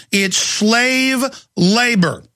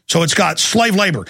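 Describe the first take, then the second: First: Slow and emphatic, with the word slave punched and drawn out; stress on slave. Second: Said in the usual way. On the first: Shown as a demonstration. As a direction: lean hard on slave and say it slowly. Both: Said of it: "we call it forced labor".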